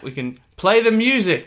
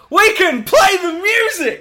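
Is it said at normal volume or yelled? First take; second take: normal volume; yelled. First: It is said at normal volume. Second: It is yelled loudly.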